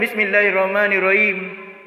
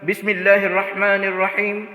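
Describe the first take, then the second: First: The letters are articulated sloppily, without fluency. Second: The letters are articulated clearly and fluently. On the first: The speaker calls it wrong. "itu diucapkan Bismillahirrahmanirrahim. Mana fasihnya?" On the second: The speaker calls it right. "Ketika mengucapkan"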